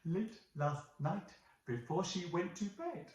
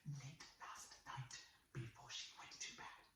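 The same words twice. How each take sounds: First: It is said at normal, clear loudness. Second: It is said very softly and quietly.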